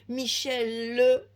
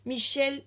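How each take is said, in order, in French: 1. Le prénom se termine par une voyelle finale ajoutée. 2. Le prénom finit sur le son l. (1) "est un prénom féminin. ... chez nous on prononce les E finaux" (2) "Michel est un prénom masculin"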